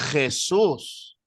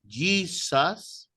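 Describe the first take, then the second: First: It is said with a harsh fricative J sound. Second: It is said with the English J sound. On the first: "Algunos españoles hacen la J fricativa" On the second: "la pronunciación inglesa"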